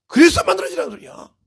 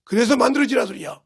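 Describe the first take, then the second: First: Loud, high-pitched insistence; forceful exhortation. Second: Said in the usual way. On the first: Real, not acted. Preacher urges the congregation to be shaped, forceful exhortation. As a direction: drive the point home with raised voice. Repeats the call more forcefully.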